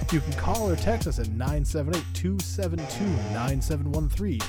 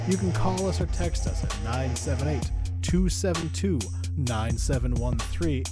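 First: The number is read at a faster pace. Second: The number is read at a slower pace.

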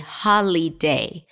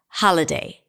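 First: The middle vowel is said as a full vowel. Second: The middle vowel is reduced to a weak schwa. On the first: The speaker calls it wrong. "I didn't say holiday" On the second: The speaker calls it right. "I reduced the vowel there to a schwa"

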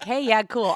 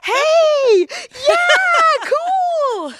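First: It is said in a casual tone. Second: It is said in an excited tone.

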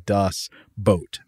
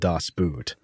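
First: The last word is said like 'boat'. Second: The last word is said like 'boot'. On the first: This is the German pronunciation. "it is pronounced the same as the English word boat. So it's actually Das Boot" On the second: This is the usual English pronunciation. "in the English speaking world, the movie is called Das Boot"

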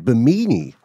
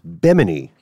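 First: It is pronounced to rhyme with bikini. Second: It is pronounced to rhyme with Gemini. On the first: The speaker calls it wrong. "for years we've been saying Bimini, like bikini" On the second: The speaker calls it right. "but it's Bimini"

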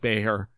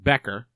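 First: The middle consonant is not a K sound. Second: The middle consonant is a K sound. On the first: This is the European way of saying it. "No K sound in there" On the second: This is how a local announcer says it. "pronounces it Becker"

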